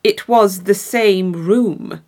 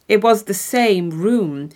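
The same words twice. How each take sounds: First: It was the same room, much slower, was hit hard; very slow final punch on was; slow emphatic repeat. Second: Was leaned on, slowed down; slow, weighty It was the same room; stress on was. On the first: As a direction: drag it out, pressing was. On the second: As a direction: land hard on was, a touch slow. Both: A narrator's reading. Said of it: "storyteller repeats key line".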